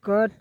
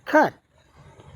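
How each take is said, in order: First: The first k sound is plain, without breath. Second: The first k sound has a strong burst of breath. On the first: "सी U T" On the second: "ख अ ठ"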